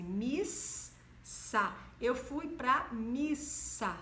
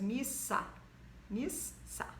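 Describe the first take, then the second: First: Slow missa with a clear hissed ss; missa with double s. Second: Missa with a long hissed ss. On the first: Teacher saying missa in a sentence for pupils. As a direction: stress the ss in missa. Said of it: "ele aparece duas vezes". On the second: Teacher stretching missa so pupils hear the double s. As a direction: hold the ss in missa. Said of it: "Aparece duas vezes". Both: Shown as a demonstration.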